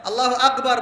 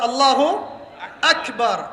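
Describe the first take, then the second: First: "আল্লাহু আকবার" run together, with "আকবার" distorted; mimicked mispronunciation. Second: "আল্লাহু", pause, then a distinct "আকবার"; correct pronunciation. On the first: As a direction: imitate people who garble "আকবার" in one quick run. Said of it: "বানিয়ে দেয়". ("আল্লাহু আকবার" একটানে ভুল উচ্চারণের নকল) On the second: Shown as a demonstration. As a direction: demonstrate "আল্লাহু আকবার" slowly, word by word. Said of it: "আল্লাহু আকবার বানিয়ে দেয়". ("আল্লাহু আকবার" থেমে থেমে শুদ্ধ উচ্চারণ)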